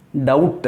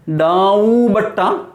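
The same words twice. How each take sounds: First: "Doubt" said as one syllable, silent b, lower; correct pronunciation. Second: "Daubatta" read slowly letter by letter, every letter sounded; spelling-out mispronunciation. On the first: Teacher to class, giving the right "Doubt". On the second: Teacher to class, reading "Daubatta" as spelt wrongly. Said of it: "How do you pronounce this word?". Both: Shown as a demonstration.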